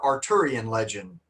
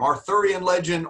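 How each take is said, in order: First: The middle consonant is a plain 't' sound. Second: The middle consonant is a soft 'th' sound. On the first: "They pronounce the T H just like a T" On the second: "in the United States, we pronounce it just like that"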